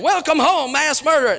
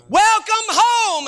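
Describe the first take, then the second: First: A touch higher, jokey mock welcome; mock greeting. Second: Slow, much higher welcome; welcoming. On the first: Joking about the church bulletin, mock cheerful. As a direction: toss it off as an absurd joke. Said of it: "we didn't say mass murderer". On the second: Retold or imitated. Bulletin greeting to a paroled kid, slow and welcoming. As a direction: greet him home gently and slowly. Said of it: "I printed his name in the bulletin".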